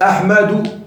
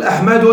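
First: "أحمد" said slowly as "Ahmadu", ending on u; damma without tanween. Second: "أحمد" said as "Ahmadun", with a final n; wrong tanween ending. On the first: Teacher showing students the allowed form, "أحمد" ending in bare "-u". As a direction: end "أحمد" on a drawn-out u, no n. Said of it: "ضمة بدون تنوين". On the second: Teacher showing students the forbidden form, "أحمد" with tanween "-un". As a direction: add a nunated "-un" to "أحمد". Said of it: "لا يجوز أن تقول". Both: Shown as a demonstration.

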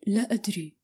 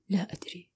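First: Said in the usual way. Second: "لا أدري" almost breathed away; strangely calm, fading. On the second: A narrator's reading. He gives up answering himself, fading quietly. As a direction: let "لا أدري" fade to nothing. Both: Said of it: "وأكمل في هدوء غريب".

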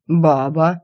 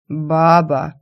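First: Rising confirming demon voice. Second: Slow lazy grunt of a chief; lazy barbarian chief. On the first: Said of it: "подтвердил мою половую принадлежность демон". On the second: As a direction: drawl it lazily like a brute. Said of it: "лениво поинтересовался вождь". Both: A narrator's reading.

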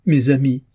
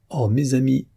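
First: "mes amis" cried out higher and louder; the emotion breaks out; tearful outcry to his friends; cry from the soul. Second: Hushed, tear-choked "Oh, mes amis"; overwhelmed, voice catching; moved, tearful. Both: A narrator's reading. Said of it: "ce cri de l'âme".

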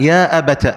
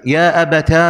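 First: "أبت" said abata, short final a; ta with fatha. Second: "أبتا" held on a long final aa; ta and alif. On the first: Teacher showing the second form, "أبت" said abata. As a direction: finish "أبت" on a brief -ta. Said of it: "فتح التاء". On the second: Teacher showing the third form, "أبتا" with long aa. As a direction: stretch the last aa of "أبتا". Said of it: "بالتاء والألف". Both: Shown as a demonstration.

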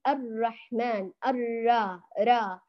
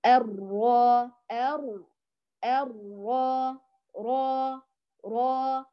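First: الرا with a light vowel leaning toward e; thinned, tilted ra. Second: الرا slow, with a dark, rounded aa; correct heavy ra. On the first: Teacher shows the imala mistake, thinned ra. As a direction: tilt the aa in الرحمن thin and fronted. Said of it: "فلا نمططها ولا نقللها". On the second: Teacher models the fix for students, slow heavy ra. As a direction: draw out a full, heavy را. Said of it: "هنا". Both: Shown as a demonstration.

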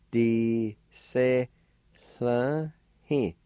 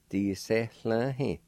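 First: "D, se, la, he" in separate, higher-pitched syllables; faint H before the L in "la", syllables held apart; syllable-by-syllable pronunciation. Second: "D, se, la, he" run together as one word; faint H before the L in "la", syllables linked; joined-up pronunciation. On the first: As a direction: say "D, se, la, he" piece by piece. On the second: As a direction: link "D, se, la, he" without long gaps. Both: Shown as a demonstration. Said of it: "It's pronounced like this".

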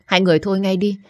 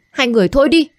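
First: Firm, raised call to stop the fight; urgent pleading. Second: Higher, louder shout to stop them; yelled plea. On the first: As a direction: tell them to quit it, pleading. (khẩn khoản can ngăn) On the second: (hét lên can ngăn) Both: Acted. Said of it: "gào thét và can ngăn".

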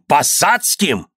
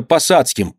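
First: High, slow, drawn-out disbelief; incredulous echo. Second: Higher-pitched, meek answer; timid son. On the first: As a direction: repeat it slowly, not believing a word. Father echoes in disbelief. (недоверчиво, протяжно) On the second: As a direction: admit it meekly to father. Timid son confessing to father. (робкий ответ сына) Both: A narrator's reading.

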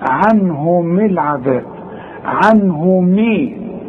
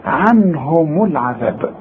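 First: Slow عنهم said with the ميم made silent; mock wrong reading. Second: عنهم العذاب slow, with the ميم voiced as mu; proper recitation; correct linked reading. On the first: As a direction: imitate the mistaken عنهم. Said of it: "في ناس بتيجي تقول إيه؟". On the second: Shown as a demonstration. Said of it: "لازم توصل هنقول إيه؟".

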